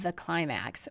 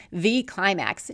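First: Said in the usual way. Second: The climax with the word the leaned on and slowed; stress on THE. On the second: Shown as a demonstration. Podcaster correcting herself to insist it is the climax, stress on the. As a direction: hit the to mean the one true climax. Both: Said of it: "or the climax".

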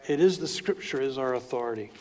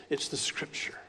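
First: Said in the usual way. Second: Breathy hushed whisper, almost unvoiced. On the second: Real, not acted. Preacher whispering to his congregation about authority, hushed. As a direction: lean in and whisper it like a secret.

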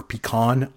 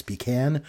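First: "pecan" said pee-KAHN; second syllable of "pecan" sounds like "kahn"; alternative pronunciation. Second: "pecan" said pee-CAN; second syllable of "pecan" rhymes with "can"; pronunciation demo. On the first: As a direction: say "pecan" with an open "ah". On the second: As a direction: say "pecan" with the short a of "cat". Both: Shown as a demonstration. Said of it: "if I'm saying that right".

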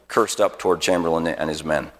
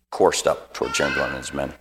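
First: "cursed" said like the swear word, curst; misread word. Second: "Coursed" said like course, korst, lower and softer; quiet self-correction to "Coursed"; corrected word. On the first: Preacher misreads "cursed" with a short u. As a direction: slip reading "cursed" as in cursing. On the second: Preacher corrects himself to "Coursed", softly. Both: Real, not acted.

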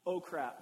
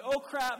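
First: Said in the usual way. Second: Louder and higher oh crap, blurted out; loud exclamation. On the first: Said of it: "I call this the". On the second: Shown as a demonstration. Pastor naming the oh crap moment to the church, loud. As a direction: blurt oh crap as a sudden alarm. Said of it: "The "oh crap" moment".

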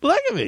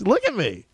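First: Hammed-up squeal on look; mock delighted squeal. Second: Much higher, bubbling over; a giddy look at me; mock excited. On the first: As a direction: top it with a gleeful squeal. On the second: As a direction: show off gleefully. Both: Repeats "look at me" rising.

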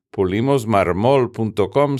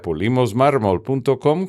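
First: "marmol" stressed on its last syllable; missing-accent stress. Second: Said in the usual way. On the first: Shown as a demonstration. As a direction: say "marmol" as mar-MOL, as written without a tilde. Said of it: "sin tilde". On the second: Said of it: "con acento".

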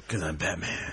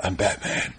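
First: Low, quiet gravelly growl; gravelly Batman voice. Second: Low gravelly growl; gravelly Batman voice. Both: Pretend. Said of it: "said something in a gravelly voice".

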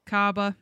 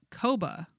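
First: "Kaba" with an open AH in the first syllable; corrected pronunciation. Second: "Koba" with a long OH in the first syllable; uncertain pronunciation. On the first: Reader takes up the co-host's suggested Australian word, corrected pronunciation. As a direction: say "Kaba" as KAH-buh. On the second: Reader tries an unfamiliar Australian word, uncertain pronunciation. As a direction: say "Koba" as KOH-buh. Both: Shown as a demonstration. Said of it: "I think Kaba".

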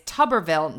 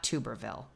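First: "Tuberville" said TUB-er-vil; short vowel opening "Tuberville", like "tubber"; correct pronunciation. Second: "Tuberville" said TOO-ber-vil; long oo opening "Tuberville", dropped low and soft; wrong pronunciation. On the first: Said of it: "It is Tuberville, not Tuberville". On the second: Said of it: "not Tuberville". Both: Shown as a demonstration.

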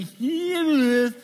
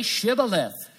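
First: Shibboleth mispronounced, much higher, louder and slowly drawn out; a foreigner straining at Shibboleth and getting it wrong; botched Shibboleth. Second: Shibboleth said properly with a clear sh; correct Shibboleth. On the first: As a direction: say Shibboleth as a stranger who can't manage the sh, high and loud. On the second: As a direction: say Shibboleth the right way, sh sound. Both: Retold or imitated. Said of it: "for he could not pronounce it right".

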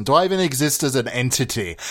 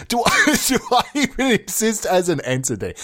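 First: Said in the usual way. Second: High, laughing through the words; real giggle breaking into the question. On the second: Real, not acted. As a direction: crack up while asking it. Cracks up repeating own absurd question.

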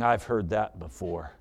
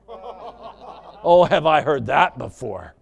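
First: Low, soft, doubting wife; quiet scepticism. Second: Louder, indignant acted wife; scornful retort. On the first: Acted. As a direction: say it softly and low, unconvinced. Wife doubting husband's promise. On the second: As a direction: throw it back at him with scorn. Wife escalating at husband.

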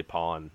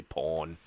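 First: Said in the usual way. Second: "pawn" with an o vowel, sounding like porn. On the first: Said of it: "they say pawn". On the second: Shown as a demonstration. Explaining an Australian pronunciation, "pawn" said like porn. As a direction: say "pawn" so it rhymes with torn. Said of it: "when they try to say pawn".

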